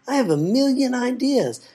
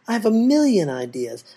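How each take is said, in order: First: Chanted, sing-song boast climbing up; chanting, rising higher. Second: Chanting. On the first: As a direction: chant it up high. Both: A narrator's reading. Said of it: "all the while chanting".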